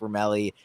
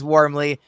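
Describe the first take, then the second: First: The name is said with an extra middle syllable. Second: The name sounds exactly like the word warmly. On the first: The speaker calls it wrong. "they assume it's Wormelli" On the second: The speaker calls it right. "warmly like how you dress when it's cold outside"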